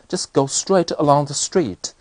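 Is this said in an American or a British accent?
British. It has a British accent with marked rises and falls. "抑扬顿挫的感觉"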